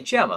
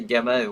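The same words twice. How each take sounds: First: The name begins with a soft G sound. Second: The name begins with a hard G sound. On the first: The speaker calls it right. "We want to say Gemma, of course" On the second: The speaker calls it wrong. "with a hard G there"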